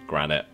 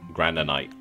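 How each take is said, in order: First: The word is said with two syllables. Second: The word is said with more than two syllables. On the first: The speaker calls it right. "It only had two syllables" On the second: The speaker calls it wrong. "I was thinking it was like granite"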